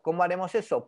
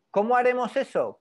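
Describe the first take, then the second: First: Said in the usual way. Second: Higher and louder, posing the question to the class; punchy teacher's question; emphatic rhetorical question. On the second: Acted. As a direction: throw the question out loud and high.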